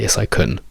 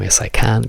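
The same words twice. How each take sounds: First: The word 'can' is reduced and unstressed. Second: The word 'can' is full and stressed.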